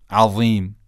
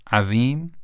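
First: "عظیم" with thick ظ, falling at the end; heavy Za. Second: "عظیم" with light ذ, ending on a rise; thin Dhal. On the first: Teacher quizzing on which is correct, "عظیم" with heavy ظ. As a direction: say "عظیم" with a full, emphatic Za. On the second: Teacher quizzing on which is correct, "عظیم" with thin ذ. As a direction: say "عظیم" with a delicate Dhal, as a choice offered. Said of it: "بله، دومی درسته". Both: Shown as a demonstration.

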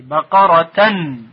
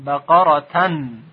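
First: بقرتن said louder and slowly as ebaqaratan; بقرتن recited louder with tanwin -an; louder recitation. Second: بقرتن drawn out slowly as baqaratan, falling at the end; بقرتن recited slowly with final tanwin -an; slow Arabic recitation. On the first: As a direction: chant بقرتن slowly, stressing the final -tan. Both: Shown as a demonstration.

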